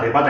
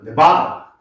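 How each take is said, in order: First: Syllables are said evenly with no clear stress. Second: One syllable carries a strong stress. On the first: A native listener would not understand it. The speaker calls it wrong. "네바다 네바다 해봤자 못 알아들어요" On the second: A native listener would understand it. The speaker calls it right. "네바다라고 해 알아들어요"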